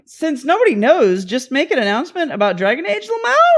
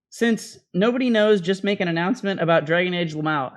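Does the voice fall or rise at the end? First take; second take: rise; fall. First: The voice rises at the end, like a question. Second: The voice falls at the end, like a statement.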